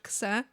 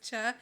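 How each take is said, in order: First: The syllable begins with a ks sound. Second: The syllable begins with a ch sound. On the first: The speaker calls it wrong. "and not ksa" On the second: The speaker calls it right. "it's cha"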